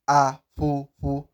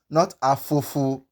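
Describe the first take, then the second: First: The consonant is air squeezed through both lips. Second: The consonant is an English-like f sound. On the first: The speaker calls it right. "as if you are trying to squeeze air through your lips" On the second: The speaker calls it wrong. "You don't pronounce it as the letter F"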